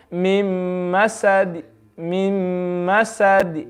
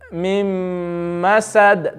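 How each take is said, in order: First: Masad ending with a faint trace of the u vowel; slow mim masad with faint final u; stop with rom. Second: Masad ended on a plain sukoon; slow Mim masad with silent stop; stop with iskan. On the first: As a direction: breathe a third of the vowel on masad. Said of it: "if I do rom". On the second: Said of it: "That's iskan". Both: Shown as a demonstration.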